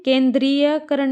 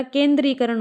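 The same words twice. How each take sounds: First: "केंद्रीयकरण" with an added ya, "kendriya-karan"; wrong form. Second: "केंद्रीकरण" with no ya, "kendri-karan"; correct form. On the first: Teacher showing students the mistake, "केंद्रीयकरण" with the ya sounded. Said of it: "नहीं होता". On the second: Teacher correcting students, "केंद्रीकरण" said without any ya. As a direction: say "केंद्रीकरण" going straight from dree to karan. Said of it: "होता है". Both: Shown as a demonstration.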